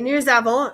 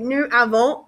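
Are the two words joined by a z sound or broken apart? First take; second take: Z sound; Broken apart. First: The words are joined smoothly with a z sound. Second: The words are separated with a break, no z. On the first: The speaker calls it right. "you make that link and you make that Z sound" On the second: The speaker calls it wrong. "it's very choppy. You have to like break it up"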